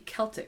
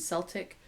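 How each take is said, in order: First: It begins with a hard K sound. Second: It begins with a soft S sound. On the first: The speaker calls it right. "with a hard C. So it should be Celtic" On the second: The speaker calls it wrong. "I think a lot of people say Celt and Celtic"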